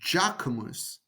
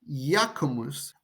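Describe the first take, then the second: First: The name begins with a J sound. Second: The name begins with a Y sound.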